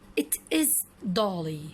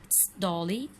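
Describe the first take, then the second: First: Both words 'it is' are said in full. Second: 'It is' is shortened to one syllable 'it's'.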